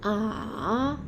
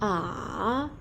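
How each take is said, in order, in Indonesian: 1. Nada turun lalu naik. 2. Nada turun lalu naik.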